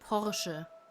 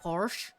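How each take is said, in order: First: The final e is sounded. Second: The final e is silent. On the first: The speaker calls it right. "It's Porsche. Because it's a German brand" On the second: The speaker calls it wrong. "It's not Porsche"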